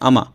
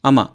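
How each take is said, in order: Both takes have the same delivery.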